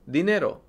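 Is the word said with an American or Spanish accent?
Spanish. It is said with a Spanish pronunciation. "the word for money in Spanish, and it's dinero"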